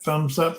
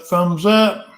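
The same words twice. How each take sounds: First: Said in the usual way. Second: Thumbs up, pushed out louder. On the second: Shown as a demonstration. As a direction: call it out with more punch.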